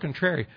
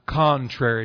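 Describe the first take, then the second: First: The word has a nonstandard regional pronunciation. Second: The word has its standard pronunciation. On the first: The speaker calls it wrong. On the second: The speaker calls it right.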